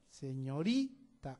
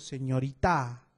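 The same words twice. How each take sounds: First: The stress falls on the second-to-last syllable. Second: The stress falls away from the second-to-last syllable. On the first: The speaker calls it right. "Aquí está la mayor fuerza de voz, en la penúltima sílaba" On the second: The speaker calls it wrong. "No suena bien"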